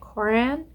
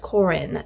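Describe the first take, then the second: First: The second vowel has an 'a' sound. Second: The second vowel has an 'i' sound. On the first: The speaker calls it wrong. "I've been pronouncing it wrong. I was pronouncing it Coran" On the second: The speaker calls it right. "it's Corin. The A makes an I sound"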